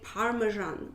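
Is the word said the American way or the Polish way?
American. It is said with an American pronunciation. This is how Americans say it. "Americans they say"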